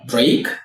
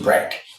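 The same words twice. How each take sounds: First: Break is said as the standalone word. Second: Break is said as inside breakfast. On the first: "from break" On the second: "to break"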